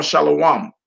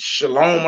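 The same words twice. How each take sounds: First: "shalom" drawn into three syllables, sha-la-wam; alternative pronunciation. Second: "Shalom" in two syllables, sha-LOM; usual pronunciation. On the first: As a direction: end "shalom" on wam instead of lom. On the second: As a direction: end "Shalom" on a plain lom. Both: Shown as a demonstration. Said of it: "the pronunciation sounds different".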